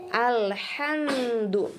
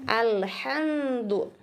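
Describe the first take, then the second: The two takes are said the same way.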